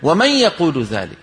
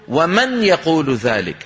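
First: The n is a short nasal hum. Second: The n is clearly tapped with the tongue. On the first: The speaker calls it right. "العربي في زمن النبوة يقول ومن يقول ذلك" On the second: The speaker calls it wrong. "لا يقرع النون بلسانه"

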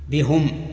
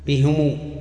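First: Both the h and the m take i. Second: The h takes i and the m takes u. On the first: "وكسرهما وهي لأبي عمرو" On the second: "وكسر الهاء وضم الميم وهي للباقين"

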